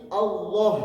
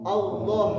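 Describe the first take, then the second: No difference in how they are said.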